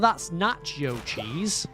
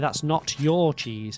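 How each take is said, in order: First: 'Not your' is blended into 'nacho'. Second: 'Not your' is said as two clear words. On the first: The speaker calls it wrong. "You don't say" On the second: The speaker calls it right. "You say"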